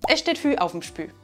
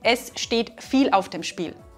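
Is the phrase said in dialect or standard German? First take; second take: dialect; standard. First: Viel and Spiel become Fü and Spü. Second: Viel and Spiel are said with a clear L. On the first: "was wir so sagen würden" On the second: "Oder oft auch mit der Kombination"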